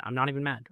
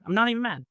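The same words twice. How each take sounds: First: Said in the usual way. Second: High, cheeky echo of the same line; playfully smug. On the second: Real, not acted. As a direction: repeat it with a smug, pitched-up grin. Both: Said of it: "repeated for effect".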